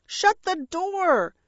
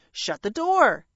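First: High, drawn-out shriek. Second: Firm, brisk parrot command; curt parrot order. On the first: A narrator's reading. Parrot as crows invade, high shriek. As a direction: shriek the order, slowly stretched. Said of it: "Bertie shrieked". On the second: Acted. Parrot telling the intruding dragon, curt order. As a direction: order it shut without fuss.

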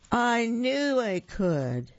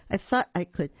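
First: High, slow, proud declaration; little engine crowing at the bottom; triumphant finish. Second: Said in the usual way. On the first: A narrator's reading. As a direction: land it like a victory. Triumphant end of the engine's chant.

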